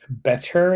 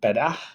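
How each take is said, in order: First: The word is pronounced carefully and clearly. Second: The word is pronounced casually and blended. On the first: "clearer enunciation of words, like better" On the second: "instead of better"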